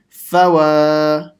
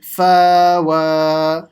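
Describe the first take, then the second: First: The vowel in the first syllable is kept short. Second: The vowel in the first syllable is stretched long. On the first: The speaker calls it right. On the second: The speaker calls it wrong.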